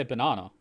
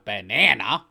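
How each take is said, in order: First: Banana with a long open ah, ba-NAH-na; Australian pronunciation. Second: Banana with a flat nasal a, ba-NAN-a, louder; mocking the American banana; mock American accent. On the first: Australian correcting Americans, plain Australian banana. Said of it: "We just say banana". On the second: Australian mocking Americans, exaggerated American banana. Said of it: "We're not American". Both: Shown as a demonstration.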